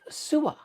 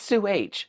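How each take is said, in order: First: The name is said as one blended word. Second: The name is said as Sue plus letter H. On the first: The name was taken to be Middle Eastern. The speaker calls it wrong. "I was always trying to say it like Sua" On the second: The H is the initial of a last name. The speaker calls it right. "it's Sue H"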